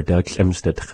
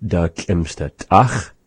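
First: "Da schlimmste Tch" clipped to a short tch ending; language example. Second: Slow demo of "Da schlimmste Tach" with a rasped ch; language example. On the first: Teacher giving the short variant "Da schlimmste Tch". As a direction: say "Da schlimmste Tch" quickly, dropping the vowel of Tach. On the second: Teacher modelling "Da schlimmste Tach" slowly for students. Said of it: "we'll hear it either said". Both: Shown as a demonstration.

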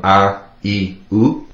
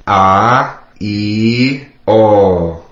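First: Said in the usual way. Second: A, I, O each held long; A, I, O as long sustained sounds, one by one; dragged vowels. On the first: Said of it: "Three drag vowels from". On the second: Shown as a demonstration. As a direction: drag out every vowel in A, I, O. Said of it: "you're gonna drag it out".

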